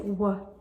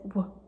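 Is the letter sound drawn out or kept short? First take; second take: drawn out; short. First: The letter sound is drawn out and long. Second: The letter sound is clipped and short. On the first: The speaker calls it wrong. "you don't want to say" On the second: The speaker calls it right. "You want to say w, w, like short"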